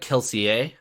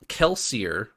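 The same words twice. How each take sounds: First: The name ends with a French-style ending. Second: The name ends with a plain English-style ending.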